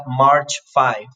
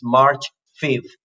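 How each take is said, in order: First: "five" as the plain number, long i as in "hive"; cardinal FIVE. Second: "fifth" with short i, as an ordinal. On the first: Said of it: "So it's not March five". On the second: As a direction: model "March fifth" with a falling end. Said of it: "it's March fifth". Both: Shown as a demonstration.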